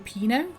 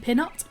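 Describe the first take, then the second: First: The final T sound is left silent. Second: The final T sound is pronounced. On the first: "I was raised French, so I don't say the T on the end" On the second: "but could be"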